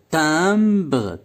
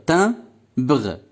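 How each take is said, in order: First: Said in the usual way. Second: Timbre as tim, pause, bre with the ending voiced; split into syllables. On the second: Shown as a demonstration. Teacher showing the word has two syllables, split into syllables. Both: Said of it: "Deux syllabes".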